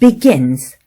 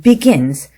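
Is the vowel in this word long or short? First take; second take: short; short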